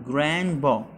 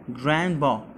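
No difference in how they are said.

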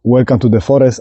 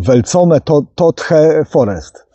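First: It is pronounced the English way. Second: It is pronounced as read in Polish. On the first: The speaker calls it right. "nazywa po angielsku" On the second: The speaker calls it wrong. "a wymawia go po polsku"

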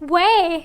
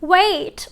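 First: The final t is dropped completely. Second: The final t is fully released. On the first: "ถ้าสมมติเราตัดตัว t ทิ้งไปเลยอย่างเงี้ยมันจะกลายเป็น" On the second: "อย่างเช่น"

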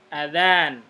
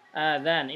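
First: The first vowel is short. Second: The first vowel is long. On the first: It means the call to prayer. The speaker calls it right. "Jadi a-nya pendek" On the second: It is a different word, not the call to prayer. The speaker calls it wrong. "Kalau a-nya ini panjang, ... ini salah"

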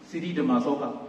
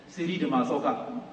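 No difference in how they are said.

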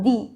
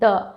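First: The word ends in a long 'ee' vowel. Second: The word ends in a short, weak 'uh' vowel. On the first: The next word starts with a vowel. "যে শুরুর শব্দটা যদি vowel থাকে তখন আমরা কি বলবো?" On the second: The next word starts with a consonant. "যখনই কনসোনেন্ট থাকবে তখন কি বলতে হবে?"

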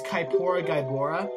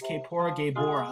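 First: The 'ae' vowel sounds like 'eye'. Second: The 'ae' vowel sounds like 'ay'. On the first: "I like to pronounce it as Kaipora Gaibora, because it's A-E, not A-Y" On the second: "His name is"

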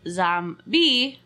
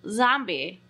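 First: The last syllable sounds like the word 'bee'. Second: It is said the ordinary way, like the monster. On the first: The speaker calls it wrong. "not like zombie. Like, zombie. Like a bee is buzzing around your head" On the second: The speaker calls it right. "Like, you know, zombies that eat you"

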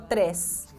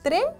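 First: The final s sound is pronounced. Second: The final s sound is left out. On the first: The speaker calls it right. "Es tres" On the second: The speaker calls it wrong. "¿No se escapó?"

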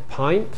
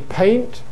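First: The vowel sounds like the i in pint. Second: The vowel is a standard ay sound. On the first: "Londoners say pint" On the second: "Instead of saying paint"

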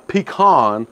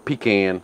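First: Pecan is said in the more widespread way. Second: Pecan is said in the local regional way. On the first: This is how most of the audience says it. "let me say it the way most of y'all say it" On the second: This is how people from the area say it. "or pecan, if you're from around here"

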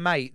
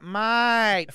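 First: The word is said quickly and plainly. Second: The word is said slowly and drawn out. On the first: "Instead of mate" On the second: "they're like"

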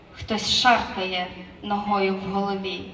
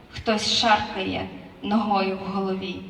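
No difference in how they are said.

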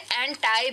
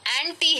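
First: The word ends with an 'eye' sound. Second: The word ends with an 'ee' sound. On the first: "कुछ लोग इसे एंटाई भी pronounce करते हैं" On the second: "हाँ एंटी है।"

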